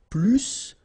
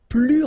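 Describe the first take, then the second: First: The final S is pronounced. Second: The final S is silent. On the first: It compares a verb. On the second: It compares an adjective.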